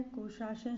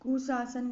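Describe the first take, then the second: First: कुशासन with a clear SH; correct SH sound. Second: कुशासन with S in both places; wrong S sound. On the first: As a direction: say कुशासन as "kushashan". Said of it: "सही है". (कुशासन में "श" की ध्वनि) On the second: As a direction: say कुशासन as "kusasan". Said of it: "गलत है". (कुशासन को "कुसासन" बोलें) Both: Shown as a demonstration.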